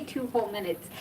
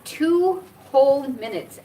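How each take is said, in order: First: Said in the usual way. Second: "two whole minutes" stretched slowly, word by word; drawn-out emphasis. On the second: Shown as a demonstration. Stressing how endless it felt, "two whole minutes" dragged out slowly. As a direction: lean long on "two" and "whole". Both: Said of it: "I say it that way because".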